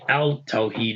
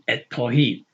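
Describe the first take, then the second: First: The article is pronounced with a clear l sound. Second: The l blends into a doubled t sound. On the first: The speaker calls it wrong. "We don't say al Tawheed" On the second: The speaker calls it right. "We say at Tawheed"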